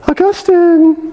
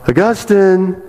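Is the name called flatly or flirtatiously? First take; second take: flirtatiously; flatly. First: The name is called out flirtatiously, with flair. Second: The name is called flatly, without flair.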